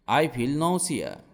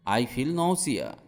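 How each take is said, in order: Both takes have the same delivery.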